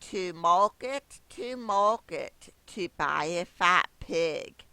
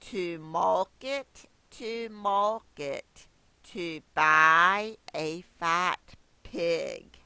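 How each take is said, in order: First: It is recited at a normal, faster pace. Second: It is recited at a slower pace.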